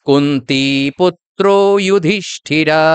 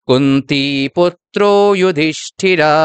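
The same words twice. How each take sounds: No difference in how they are said.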